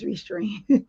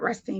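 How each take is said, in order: First: It is said with an r before 'eam'. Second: It is said with a t before 'eam'. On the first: The speaker calls it right. "It's Restream" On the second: The speaker calls it wrong. "I was saying Rest Team, but it's not Rest Team"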